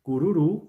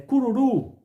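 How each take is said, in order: First: Cururu said again, calmer, last syllable RU still leaning; stressed final syllable. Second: Cururu called out high and loud, last syllable RU punched; teacher calls out cururu, hitting the final RU; stressed final syllable. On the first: Teacher repeats example, calmer stress on final syllable. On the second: Teacher to class, demo word called out loud. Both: Shown as a demonstration. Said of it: "o U aí é uma vogal tônica".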